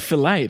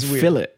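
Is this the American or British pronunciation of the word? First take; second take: American; British. First: It is said with the American pronunciation. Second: It is said with the English pronunciation. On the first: The American listener says it this way. "But you'd say fillet" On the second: People in England say it this way. "England, they say fillet"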